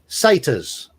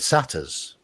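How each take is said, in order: First: The word is said with an American pronunciation. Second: The word is said with a British pronunciation. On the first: "You've learnt that pronunciation from a, from an American film" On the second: "you mean satyrs?"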